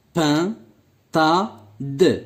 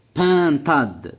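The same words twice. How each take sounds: First: Pintade as three detached pieces, pin, ta, de; split into syllables. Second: Said in the usual way. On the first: Shown as a demonstration. Teacher showing the word has three syllables, split into syllables. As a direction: leave a gap after each of Pain, Ta, De. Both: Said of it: "Trois syllabes".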